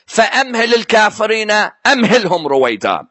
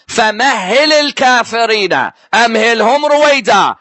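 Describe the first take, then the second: First: فَأَمْهِلِ recited fast with a long "fa-am" opening in place of a doubled "hh"; mistaken accented recitation. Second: فَمَهِّلِ recited with a doubled, stressed "hh" in "fa-mah-hil"; correct recitation. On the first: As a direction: rush the verse so فَأَمْهِلِ swallows the shadda. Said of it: "because of his accent, he was saying". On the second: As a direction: give the true reading, lean on the shadda of فَمَهِّلِ. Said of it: "The verse is what?". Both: Shown as a demonstration.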